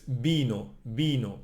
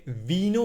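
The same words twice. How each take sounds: First: Vino with closed lips, like bino. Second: Vino with lips open, English v; wrong English v. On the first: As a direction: press the lips together for the v of vino. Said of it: "we close the lips". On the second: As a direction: say vino with teeth on lip, the wrong way. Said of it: "we don't say vino with open lips". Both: Shown as a demonstration.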